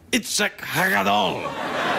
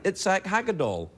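First: The name is pronounced carefully. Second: The name is pronounced casually. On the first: The speaker calls it right. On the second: The speaker calls it wrong.

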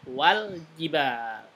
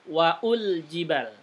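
First: No vowel is voiced between 'wa' and 'l'. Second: A 'u' vowel is voiced after 'wa'. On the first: The alif in mid-phrase is silent. The speaker calls it right. "tapi wal jibal" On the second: The sign is wrongly read as a dhamma vowel. The speaker calls it wrong. "bukan waul jibal"

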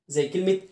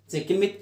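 The two takes are said the same way.

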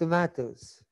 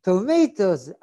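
First: It is said with a British English accent. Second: It is said with an American English accent. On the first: The listener did not understand the word. "אני מדבר אנגלית במבטא אנגלי" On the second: The listener understood the word. "עכשיו הוא מבין"

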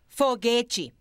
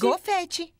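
First: The word starts with an f sound. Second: The word starts with a g sound. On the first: The speaker calls it right. "Se diz foguete" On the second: The speaker calls it wrong. "Não se diz gofete"

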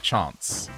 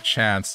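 First: The word is said in a fancy-sounding way. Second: The word is said in a plain way. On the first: "they just say fancy-sounding things" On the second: "instead of saying chance"

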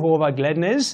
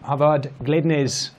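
First: The first vowel sounds like an o. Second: The first vowel sounds like an a. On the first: The speaker calls it right. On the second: The speaker calls it wrong.

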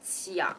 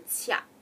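First: The word ends with a clear 'ah' sound. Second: The word ends without a clear 'ah' sound. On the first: The speaker calls it right. "You actually hear an ah sound at the end" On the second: The speaker calls it wrong. "not just a tia"

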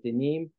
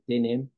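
First: It is said in standard Hebrew pronunciation. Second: It is said in Ashkenazic Hebrew pronunciation. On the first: "it should be in Hebrew"

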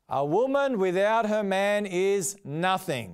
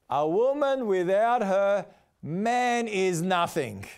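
First: It runs on without pauses. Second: There are pauses around 'without her'.

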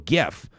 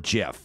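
First: The word begins with a hard G sound. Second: The word begins with a soft J sound. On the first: "I say it with a hard G" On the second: "it's supposed to be a J sound"

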